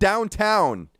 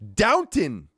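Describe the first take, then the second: First: The second syllable sounds like 'town'. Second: The second syllable sounds like 'ton'. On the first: The speaker calls it wrong. "It's not downtown" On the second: The speaker calls it right. "It's Downton"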